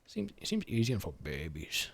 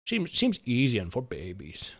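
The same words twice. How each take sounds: First: Much softer, muttered repeat; quiet repeat. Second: Said in the usual way. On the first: Shown as a demonstration. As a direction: say it again under your breath.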